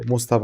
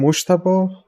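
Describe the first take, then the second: First: "Mostaba" with a plain S, Mos-ta-ba. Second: "Mostaba" with an SH sound, Moshtaba. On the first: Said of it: "it seems kind of, um, similar". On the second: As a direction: say "Mostaba" as Mosh-ta-ba. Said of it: "Or like, uh, or Mostaba". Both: Shown as a demonstration.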